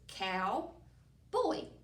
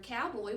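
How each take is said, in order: First: It is said as two separate words. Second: It is said as one whole word.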